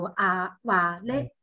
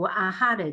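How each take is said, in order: First: The middle consonant is a w sound. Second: The middle consonant is an h sound. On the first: The speaker calls it right. "就读阿瓦雷，阿瓦雷这样发音" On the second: The speaker calls it wrong. "现在我们读的话就不读阿哈雷"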